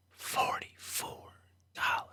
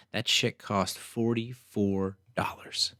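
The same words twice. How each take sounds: First: Even softer, slower whisper; fainter whisper. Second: Slow, whispered disbelief at the price; incredulous whisper. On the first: Repeating the price to herself, a fading whisper. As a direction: let the repeat fade to almost nothing. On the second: To listeners about a forty-four dollar sandwich, slow stunned whisper. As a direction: whisper it slowly, stunned by the bill. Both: Real, not acted.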